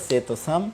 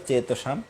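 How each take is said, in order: Both takes have the same delivery.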